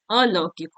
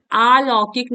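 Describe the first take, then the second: First: अलौकिक with a short opening a; correct form. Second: अलौकिक said with a long opening aa; wrong form. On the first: Teacher correcting vowel length, correct short start. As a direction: keep the first vowel of अलौकिक short, lower-pitched. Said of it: "अलौकिक होता है". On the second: Teacher showing a vowel-length error, wrong long start. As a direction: stretch the first vowel of अलौकिक to "aa". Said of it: "अलौकिक नहीं होता है". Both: Shown as a demonstration.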